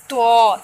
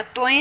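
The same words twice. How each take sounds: First: तो said short and loud, no trailing e; loud clean Arabic तो; Arabic letter. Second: तोए said the Urdu way with the trailing e; तोए in plain Urdu style; Urdu letter name. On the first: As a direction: clip it to तो the Arabic way. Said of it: "Arabic में हमने क्या पढ़ना है". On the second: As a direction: read तोए as in Urdu alphabet. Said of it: "तोए हम उर्दू में पढ़ते हैं". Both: Shown as a demonstration.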